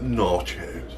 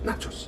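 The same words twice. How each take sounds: First: It is said with a California-style accent. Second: It is said in a plain, ordinary accent. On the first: "with that, that weird California thing" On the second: "instead of"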